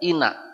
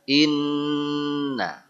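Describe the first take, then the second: First: The n sound is short. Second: The n sound is doubled. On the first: The speaker calls it wrong. "Di Quran tidak ada inna" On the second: The speaker calls it right. "yang ada inna"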